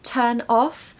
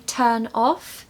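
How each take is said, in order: The two takes are said the same way.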